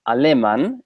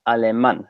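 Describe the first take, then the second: First: The stress is not on the final syllable. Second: The stress is on the final syllable. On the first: The speaker calls it wrong. "it's not alemán" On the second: The speaker calls it right. "it's alemán. So the loudest part of the word is that is that A"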